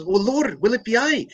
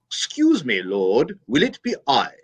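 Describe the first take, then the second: First: High Irish lilt on "will it be I"; Irish John. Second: "Excuse me, Lord" in a prim English voice, no brogue; English Judas. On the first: John asks Jesus in the priest's Irish brogue. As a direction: ask in a thick Irish brogue. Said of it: "John comes up and says". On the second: Judas, the priest's English villain, in a prim English voice. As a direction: make Judas clipped and English. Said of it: "that devil said". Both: Retold or imitated.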